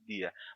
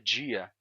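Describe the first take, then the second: First: The word begins with a plain d sound. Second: The word begins with a j-like sound. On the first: "já que tem ali uma letra D e não uma letra J, então só poderia ser dia" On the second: "Pode ser dia também"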